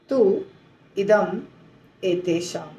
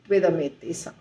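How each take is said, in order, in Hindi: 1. ये तीनों शब्द अलग-अलग बोले जाते हैं। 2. ये तीनों शब्द जुड़कर एक शब्द बन जाते हैं। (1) "आप अलग अलग बोल नहीं पाएंगे" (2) "त्विदमेतेषाम आपको ऐसे बोलना होगा"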